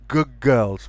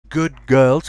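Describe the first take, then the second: First: Good ends with a g sound. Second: Good ends with a d sound.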